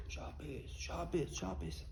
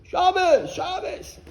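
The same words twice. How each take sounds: First: Barely voiced, very soft murmur; hushed, private repetition; quietly. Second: High, loud shout; demonstrated high-pitched yell; scream. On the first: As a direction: say it under your breath. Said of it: "why do you say Shabbos kacha quietly". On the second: Retold or imitated. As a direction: belt it out for the whole street.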